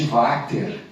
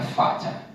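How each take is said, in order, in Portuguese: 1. O nome é pronunciado do jeito brasileiro. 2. O nome é pronunciado do jeito alemão. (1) "como nós brasileiros falamos" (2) "eu não sei se Vater era alemão ou austríaco, então a pronúncia seria Vater"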